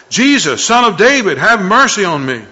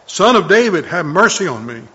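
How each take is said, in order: First: Loud desperate cry for mercy; a blind beggar crying out loud to Jesus. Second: Loud pleading cry; crying out again. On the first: Blind beggar calling out loud to Jesus for mercy. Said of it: "he began to cry out and say". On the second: Blind beggar crying out over the crowd. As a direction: call out again, still loud. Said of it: "he kept crying out all the more". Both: A narrator's reading.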